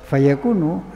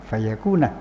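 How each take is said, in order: First: The word ends with an u vowel. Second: The word ends with an a vowel. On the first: The verb is read in the nominative reading, implying a hidden 'huwa'. "lafal yakunu birraf'in, dengan baca rafa" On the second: The verb is read in the subjunctive reading, implying a hidden 'an'. "Wa binasbi, dan dengan dibaca nasab"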